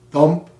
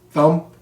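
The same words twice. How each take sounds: The two takes are said the same way.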